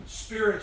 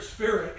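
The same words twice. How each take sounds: First: Said in the usual way. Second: Spirit repeated higher and louder, pounding it; hammered repeat. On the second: Shown as a demonstration. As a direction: hit spirit hard the second time, like hammering a nail. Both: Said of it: "it's just like it's hammering that point home".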